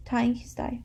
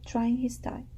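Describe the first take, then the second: First: Said in the usual way. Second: "trying" said with an r after the t, like try; "trying" read by mistake as try-ing; misread word. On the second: Real, not acted. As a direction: slip of the tongue on "trying".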